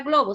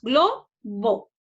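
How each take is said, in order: First: Said in the usual way. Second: Globo split as glo, bo with a pause; syllable by syllable. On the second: Shown as a demonstration. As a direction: draw out both halves of Globo separately. (Globo separado en sílabas: glo, bo) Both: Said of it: "separemos en sílabas".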